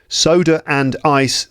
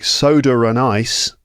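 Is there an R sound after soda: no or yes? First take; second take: no; yes. First: Soda joins the next word without an R sound. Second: An R sound links soda to the next word.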